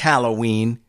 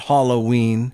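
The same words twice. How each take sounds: First: The first syllable does not sound like hollow. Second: The first syllable sounds like the word hollow. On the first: The speaker calls it right. "It's Halloween" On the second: The speaker calls it wrong. "There's nothing hollow about Halloween"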